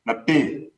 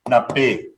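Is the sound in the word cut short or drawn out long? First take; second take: long; short. First: The sound is drawn out and held longer. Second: The sound is cut short by a glottal stop. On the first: It means God. "the sound extension. It makes those sound longer" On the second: It means friend. "When we put a stop, glottal stop, it shortens the sound"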